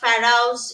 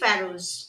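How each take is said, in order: First: The word ends with an 'ouse' sound, fa-rouse. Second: The word is said with two syllables, fa-rose. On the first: The speaker calls it wrong. "যেগুলো কিন্তু ভুল উচ্চারণ" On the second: The speaker calls it right. "সঠিক উচ্চারণ হচ্ছে"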